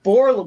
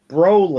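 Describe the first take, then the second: First: The name begins with the sound 'bor'. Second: The name begins with the sound 'bro'. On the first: The speaker calls it wrong. "Not Borland" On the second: The speaker calls it right. "that's how his name is pronounced"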